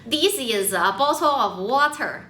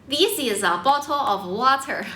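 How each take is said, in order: The two takes are said the same way.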